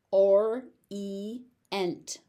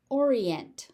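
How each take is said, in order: First: "Orient" as or, ee, ent with gaps; three separate beats on "Orient"; syllable by syllable. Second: Said in the usual way. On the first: Shown as a demonstration. Teacher sounding out "Orient" for learners, syllable by syllable.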